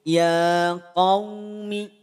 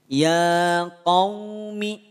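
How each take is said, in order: No difference in how they are said.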